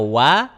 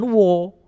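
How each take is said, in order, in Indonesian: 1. Vokalnya ringan dan terbuka, seperti 'wa'. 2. Vokalnya berat dan membulat, seperti 'wo'. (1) "jadi wa-nya jelas" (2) "Jangan wo. Kalau wo jadi tebal"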